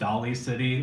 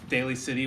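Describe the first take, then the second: First: The first vowel sounds like 'doll'. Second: The first vowel sounds like 'day'. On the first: The speaker calls it wrong. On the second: The speaker calls it right.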